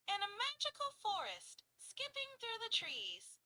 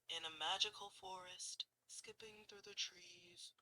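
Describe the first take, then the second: First: It is said in a light, high girl's voice. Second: It is said in a deep male voice.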